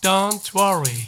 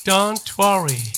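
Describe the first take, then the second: Both takes have the same delivery.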